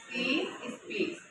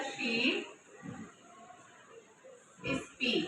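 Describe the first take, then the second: First: Speaks said clearly with its final s; ending on speaks. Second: Said in the usual way. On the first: Shown as a demonstration. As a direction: make the s at the end of speaks heard. (speaks के अंत का s साफ़ बोलें) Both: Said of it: "sentence make हो गया".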